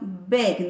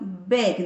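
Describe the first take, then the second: First: The vowel sounds close to an 'e'. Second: The same.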